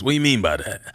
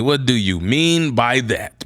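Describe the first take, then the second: First: Low, quick comic celebrity impression; Drewski. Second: WHAT DO YOU MEAN spaced out word by word; slow, spelled-out question. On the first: Repeating the hiker's reaction, Drewski impression. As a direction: toss it out as a baffled impression. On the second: Acted. Hiker questioning the guide's warning, slow and deliberate. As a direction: draw out "What do you mean by that" slowly and distinctly. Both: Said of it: "my best Drewski voice".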